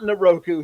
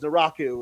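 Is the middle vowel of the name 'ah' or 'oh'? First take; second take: oh; ah. First: The middle vowel sounds like 'oh'. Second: The middle vowel sounds like 'ah'. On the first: The speaker calls it wrong. "He is he is not Naroku" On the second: The speaker calls it right. "He is Naraku"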